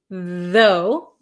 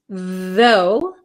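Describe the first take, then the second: No difference in how they are said.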